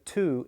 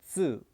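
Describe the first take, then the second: First: The syllable starts with a plain t sound. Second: The syllable starts with a ts sound. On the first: The speaker calls it wrong. "instead of tu" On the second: The speaker calls it right. "it's tsu. So it's kind of a T S U sound"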